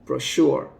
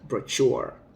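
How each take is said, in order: First: The middle consonant is a soft 'sh' sound. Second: The middle consonant is a hard 'ch' sound. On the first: The speaker calls it right. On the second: The speaker calls it wrong.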